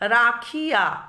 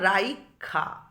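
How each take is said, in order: First: The i vowel comes after the kh. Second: The i vowel comes before the kh. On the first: "ক্ষয়ের হ- পরে হচ্ছিল হস্যই উচ্চারণ" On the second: "ক্ষয়ের আগে এসে গেছে হস্যইকারটা"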